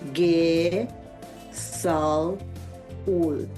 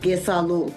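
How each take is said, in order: First: The word is split into separate syllables. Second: The word is said smoothly as one unit. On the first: "the pronunciation is" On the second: "It's all one sound"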